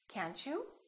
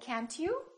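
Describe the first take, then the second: First: The t and 'you' merge into ch. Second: A plain t sound comes before 'you'. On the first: The speaker calls it right. "we say" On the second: The speaker calls it wrong. "we don't say"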